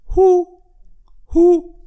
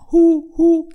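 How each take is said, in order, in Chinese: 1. 这两声呼呼一声一声地来，是分开的。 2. 这两声呼呼连成一个音组。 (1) "一声一声的" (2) "这个两声一句的呼呼"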